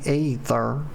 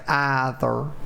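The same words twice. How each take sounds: First: The word begins with an 'ee' sound. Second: The word begins with an 'eye' sound. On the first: The speaker calls it wrong. "Excuse me" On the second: The speaker calls it right. "I meant to say either. The E is actually silent in that word"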